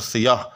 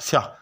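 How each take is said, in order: First: The vowel after the first consonant is kept. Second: The vowel after the first consonant is dropped quickly. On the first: The speaker calls it right. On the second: The speaker calls it wrong.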